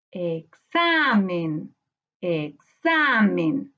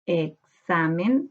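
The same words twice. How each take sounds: First: Very slow "examen" with XA held long and lifted; stressed middle syllable. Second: "examen" slowly split, e-xa-men; syllable by syllable. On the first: Teacher hunting the sílaba tónica, "examen" with XA drawn out. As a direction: stretch the XA in "examen". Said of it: "Busquemos ahora la sílaba tónica". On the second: Teacher counting syllables, "examen" slowly piece by piece. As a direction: sound out "examen" in separate syllables. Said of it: "cuando separamos por sílaba". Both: Shown as a demonstration.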